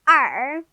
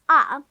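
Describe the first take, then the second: First: The letter is said with an American r-colored sound. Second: The letter is said as a plain British vowel.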